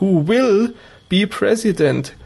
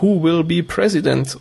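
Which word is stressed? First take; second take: will; President. First: The stress falls playfully on will. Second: The stress falls normally on president. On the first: It hints that a certain actor will be president. "das hat er dann ganz lustig betont" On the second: It simply asks who the president will be. "ins Englische überträgt, dann heißt das ja"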